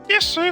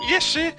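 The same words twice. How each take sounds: First: The voice is squeaky and nasal. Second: The voice is less squeaky and nasal.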